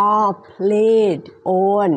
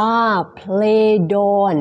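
First: "are played on" slowly, each word separate; careful word-by-word "are played on"; unlinked words. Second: "are played on" with "played" running into "on"; slow "are played on", joined as play-don; linked words. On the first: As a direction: keep "played" and "on" apart, no linking. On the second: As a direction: link the final D of "played" onto "on". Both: Shown as a demonstration. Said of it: "สามารถลิงก์คำได้นะคะ".

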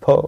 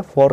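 First: For with a silent r, "faw"; correct pronunciation. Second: For with a sounded final r; wrong pronunciation. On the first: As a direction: model for as an open "fo". (for, "र" को छोड़कर) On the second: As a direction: show for as "forr". (for, "र" बोलकर) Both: Shown as a demonstration. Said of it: "for नहीं है".

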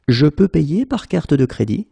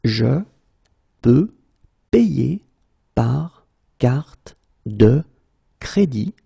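First: Said in the usual way. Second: Par carte de stretched very slowly; slow, broken into words. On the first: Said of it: "teacher repeats full sentence". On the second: Shown as a demonstration. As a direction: pause between every word. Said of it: "teacher drills word by word".

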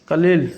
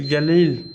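First: কালিল with a hard initial k; pronunciation variant. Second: গালিল with a voiced initial g; pronunciation variant. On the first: Teacher offers learners the k form কালিল, demonstrating pronunciation. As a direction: say কালিল as "kalil", starting on k. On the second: Teacher offers learners the g form গালিল, demonstrating pronunciation. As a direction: say গালিল as "galil", starting on g. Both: Shown as a demonstration. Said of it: "কালিল অথবা".

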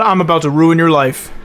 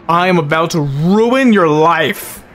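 First: Angry threat. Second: Slow, deliberate, every word pressed; real seething anger; slow seething threat. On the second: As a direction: spell out the threat slowly. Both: Real, not acted. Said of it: "I am so mad".

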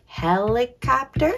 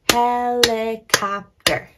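First: "Helicopter" in chunks, rising at the end; careful "Helicopter" ending upward; sounding out syllables. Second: "helicopter" slow, four firm beats, falling end; emphatic HEL-I-COP-TER; clapped-out syllables. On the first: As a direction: say "Helicopter" syllable by syllable, questioning lift. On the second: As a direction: punch each syllable of "helicopter" slowly. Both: Shown as a demonstration. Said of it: "Let's check these words out".

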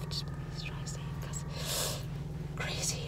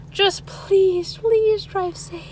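First: Whispered aside. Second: Higher and slow, drawn out; high slow plea. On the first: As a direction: drop to a secret whisper. Whispered repeat of the plea. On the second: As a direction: beg them gently to drive safe. Pleading with viewers, then whispered. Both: Real, not acted.

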